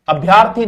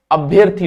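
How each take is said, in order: First: अभ्यर्थी with long aa, abh-yaar-thee; wrong pronunciation. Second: अभ्यर्थी as abh-yer-thee, short vowel; correct pronunciation. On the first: Teacher showing the mistake, mispronounced demo. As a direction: say अभ्यर्थी stretching the vowel after भ्य. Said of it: "अभ्यर्थी नहीं होता". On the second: Teacher giving the correct word, careful pronunciation. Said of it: "अभ्यर्थी होता है". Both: Shown as a demonstration.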